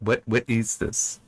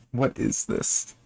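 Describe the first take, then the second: First: Said in the usual way. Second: Slow, breathy disbelieving whisper; whispered under the breath in disbelief; baffled whisper. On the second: Real, not acted. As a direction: whisper it, stunned by the nonsense. Baffled by the odd story.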